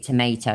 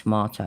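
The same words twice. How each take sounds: First: It is said with an American pronunciation. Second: It is said with a British pronunciation. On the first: The speaker calls it wrong. "You say tomato" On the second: The speaker calls it right. "instead of tomato"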